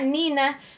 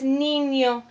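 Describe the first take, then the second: First: The middle consonant is a plain n sound. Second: The middle consonant is an ny sound. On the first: The speaker calls it wrong. "that word here is not Nina" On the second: The speaker calls it right. "it's niño"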